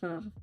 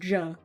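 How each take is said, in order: First: It starts with a breathy H sound, like ha. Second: It starts with an English J sound, like jaw. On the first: The speaker calls it right. "I know it's ha. That's Spanish" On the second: The speaker calls it wrong. "I pronounce it like jaw"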